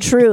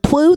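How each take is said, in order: First: The word is said with a clear r sound. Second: The word is said without a clear r sound. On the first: The speaker calls it right. "whoops, I meant true" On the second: The speaker calls it wrong. "say something wrong on accident"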